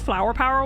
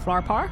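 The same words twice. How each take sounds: First: The vowels sound like 'ow'. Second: The vowels sound like 'ah'. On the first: It is how the speaker actually talks. "but I don't" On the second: It is the Northern Irish way. "I'm Northern Irish, so I should really say Flower Power"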